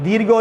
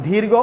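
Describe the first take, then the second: The two takes are said the same way.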